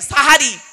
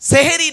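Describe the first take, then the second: First: The first vowel is an open 'a' sound. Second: The first vowel is an 'e' sound. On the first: The speaker calls it right. "দন্তেশয় আকার" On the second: The speaker calls it wrong. "সেহেরি নয়"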